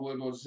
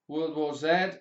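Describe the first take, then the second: First: Z is said the American way, as zee. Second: Z is said the British way, as zed.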